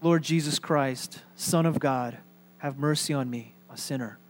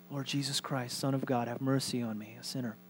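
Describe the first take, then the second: First: Meditative prayer. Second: Very soft, low murmured prayer; hushed prayer. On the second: Pastor repeats the short prayer for congregation, hushed and meditative. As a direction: pray it under your breath. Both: Shown as a demonstration.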